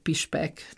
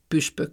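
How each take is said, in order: First: The vowels are said with spread lips. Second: The vowels are said with rounded lips. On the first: This is the regional dialect form. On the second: This is the standard form.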